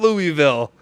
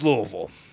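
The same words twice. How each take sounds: First: Each syllable is said clearly and separately. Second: The syllables are mumbled and slurred together. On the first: The speaker calls it wrong. "It's not Louisville" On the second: The speaker calls it right. "like you got a mouthful of bourbon"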